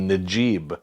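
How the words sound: The name begins with a j sound.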